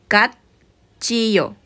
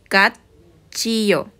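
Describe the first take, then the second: First: The first syllable ends in a t sound. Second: The first syllable ends in a t sound.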